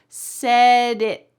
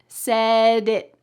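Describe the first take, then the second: No difference in how they are said.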